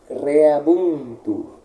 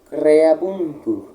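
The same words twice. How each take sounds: The two takes are said the same way.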